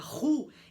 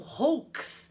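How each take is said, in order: First: It sounds like 'roo' with a silent end. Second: It does not sound like a plain 'roo'. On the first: The speaker calls it right. "O com U forma U. Por isso que a gente vai pronunciar roux" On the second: The speaker calls it wrong. "e não roux"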